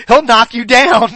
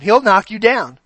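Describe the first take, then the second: First: Laughing warning. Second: Said in the usual way. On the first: Retold or imitated. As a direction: laugh as you warn him. Retold warning, laughing through it.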